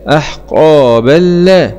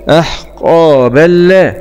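The two takes are said the same way.

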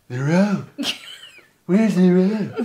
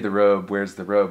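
First: It is said in a put-on character voice. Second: It is said in the speaker's ordinary voice. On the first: "But in my Paulus voice, it sounds like" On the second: "I say the Robe, where's the Robe?"

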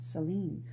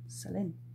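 First: The name is said in the common English way. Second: The name is said in its native French way. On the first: This is how most of the world says the name. The speaker calls it wrong. "not Celine" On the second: This is how the person herself says the name. The speaker calls it right. "her name is actually [name]"

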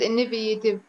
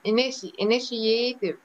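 First: The middle 'ti' is not said as 'sh'. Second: The middle 'ti' is said as 'sh'. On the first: The speaker calls it wrong. "مش انيفيتيف" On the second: The speaker calls it right. "التي اي بتنطق شيء"

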